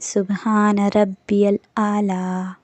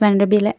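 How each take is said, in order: First: The phrase is said slowly, each word given space. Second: The phrase is said quickly, with words swallowed. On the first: The speaker calls it right. "ऐसे पढ़ना है" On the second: The speaker calls it wrong. "ऐसे नहीं"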